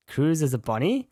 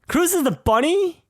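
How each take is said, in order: First: First, restrained reaction to a surprise; puzzled double take. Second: Much higher, incredulous question; high-pitched shocked double take; astonished disbelief. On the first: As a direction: ask it in mild disbelief, pitch climbing on "bunny". First reaction to learning Cruz is bunny. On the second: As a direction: blurt it out in real amazement, pitch leaping up. Repeats the discovery in astonishment. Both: Real, not acted.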